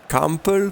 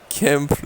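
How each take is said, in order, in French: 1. Le nom se prononce à l'allemande. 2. Le nom se prononce à la française.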